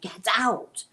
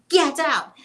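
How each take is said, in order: First: It is said somewhat louder. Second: It is yelled very loudly.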